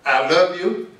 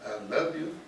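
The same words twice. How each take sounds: First: LOVE lifted and said louder; emphatic I love you. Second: I love you said much softer, "love" gently stressed; soft recap. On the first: Preacher urging young people, saying "love" loud and full. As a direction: teach it like a vow, hitting "love". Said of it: "Learn to say". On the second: Speaker recapping the lesson to students, soft and gentle. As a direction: murmur it back as a tender reminder. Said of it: "They'll take you a long ways". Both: Shown as a demonstration.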